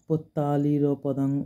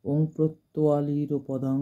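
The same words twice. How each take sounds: First: Slow পত্তালির, plain "tt" with no r after the p; mistaken pronunciation. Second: Slow প্রত্যালির, with the r after the p; corrected pronunciation. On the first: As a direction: say পত্তালির as "pottaliro", drawn out. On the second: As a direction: say প্রত্যালির as "protwaliro", drawn out. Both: Shown as a demonstration. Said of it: "কিন্তু actually নয় ওটা".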